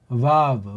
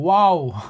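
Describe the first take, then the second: First: The name begins with a V sound. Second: The name begins with a W sound. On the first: This is the German-style name. "이게 독일식인데" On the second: This is the American-style name. "이게 미국식이에요"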